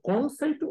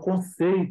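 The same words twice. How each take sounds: First: The stress is on the first syllable. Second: The stress is on the middle syllable. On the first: The speaker calls it wrong. "eu não falo conceito" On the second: The speaker calls it right. "eu falo conceito"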